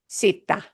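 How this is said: The first consonant is an s sound. This is how it sounds in Latin America. "In Latin American"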